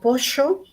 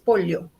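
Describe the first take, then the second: First: It is said in a Buenos Aires accent. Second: It is said in a Cusco accent. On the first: "Alguien en Buenos Aires dirá" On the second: "alguien del Cusco nos dirá seguramente que es pollo"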